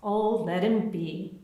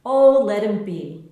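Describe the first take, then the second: First: Slow, easy let-it-go; sick neighbour, gentle and slow; gentle indulgence. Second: Louder, easygoing brush-off; fond neighbour, loud and easy; indulgent. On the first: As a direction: soothe the worried mum slowly. Anna indulging the child again. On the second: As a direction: wave the worry away, loudly. Anna indulging the child. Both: A narrator's reading.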